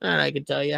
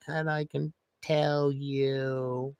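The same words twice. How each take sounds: First: Said in the usual way. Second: Very slow, dragged out; slow motion. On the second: Shown as a demonstration. Streamer contrasting normal and slow-motion speech, very slow. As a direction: stretch each word like slow motion. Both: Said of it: "I can talk like I'm in slow motion".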